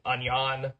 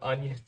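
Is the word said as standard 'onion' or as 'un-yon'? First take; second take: un-yon; standard. First: The word sounds like 'un-yon'. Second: The word has its usual pronunciation. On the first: It is the pet name of a plush toy. The speaker calls it wrong. "I keep saying onion" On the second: It is the ordinary name of the vegetable. The speaker calls it right. "instead of onion"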